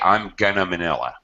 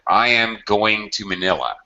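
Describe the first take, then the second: First: Going to is reduced to gonna. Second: Going to is said in full, unreduced. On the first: The speaker calls it wrong. "I cannot say I'm gonna Manila. It sounds ridiculous" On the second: The speaker calls it right. "If going is the main verb, we can't reduce it"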